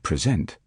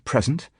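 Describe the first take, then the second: First: The stress is on the second syllable. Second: The stress is on the first syllable. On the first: It is used as a verb. "as against verb on second" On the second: It is used as a noun. "stress noun on first syllable"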